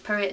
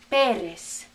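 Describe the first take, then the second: First: It is pronounced with an English accent. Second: It is pronounced with a Spanish accent. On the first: The speaker calls it wrong. "We say it's Perez" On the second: The speaker calls it right. "Very good"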